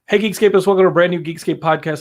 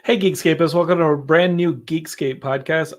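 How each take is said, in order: First: It is spoken very fast, words run together. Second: It is spoken slowly and clearly. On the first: "I gotta get like really fast" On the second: "this is the part of the show that I have to like slow down"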